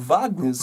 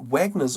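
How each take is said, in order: First: The name is said in its original way. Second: The name is said in an anglicized way.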